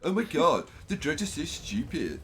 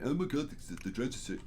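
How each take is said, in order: First: It is said in a put-on Valley Girl voice. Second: It is said in his normal voice.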